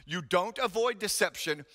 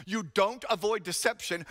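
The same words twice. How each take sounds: The two takes are said the same way.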